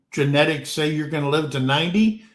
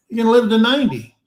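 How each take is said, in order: First: Said in the usual way. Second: Higher, louder and very fast, punching "gonna"; emphatic repeat. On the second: Real, not acted. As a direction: hammer the repeat home, "gonna" hit hard and rushed.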